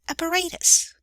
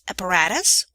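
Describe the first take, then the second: First: The word is said the usual British way. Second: The word is said the usual American way. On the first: "most British speakers the latter" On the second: "Most Americans will say the former"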